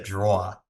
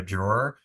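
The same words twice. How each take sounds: First: Drawer as DRAW-uh, Long Island style; Long Island accent. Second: Said in the usual way. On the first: Shown as a demonstration. Host shows how home said it, drawer in Long Island accent. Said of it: "Like, we said drawer". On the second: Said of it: "pronounce with a Long Island accent".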